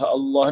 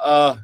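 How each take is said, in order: First: The word is said in full with two syllables. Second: The word is cut down to a single sound. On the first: The speaker calls it right. "apa yang susah sangat sebut Allah" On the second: The speaker calls it wrong. "nak juga sebut ah"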